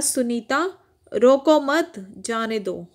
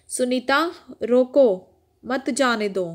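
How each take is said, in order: First: Slow "रोको मत" joined, break, then "जाने दो"; pause after मत. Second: "रोको," set off by a pause, then "मत जाने दो"; pause after रोको. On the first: Teacher reads the contrasting sentence to children, pausing after मत. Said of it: "और यहाँ लिखा हुआ है". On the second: Teacher shows children how a pause changes meaning, pausing after रोको. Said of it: "इन दोनों वाक्यों को पढ़िए". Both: Shown as a demonstration.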